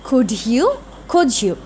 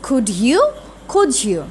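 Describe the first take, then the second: Both takes have the same delivery.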